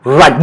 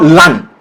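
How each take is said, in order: First: "run" said with a clear initial R; correct R in run. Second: "run" mispronounced as "lun"; L in place of R. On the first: Teacher shows the right sound, clear R in "run". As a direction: roll into a strong R on "run". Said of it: "not run". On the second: Teacher shows learners' mistake, "run" with an L. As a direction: swap the R of "run" for an L. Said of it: "a lot of you will pronounce L S R". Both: Shown as a demonstration.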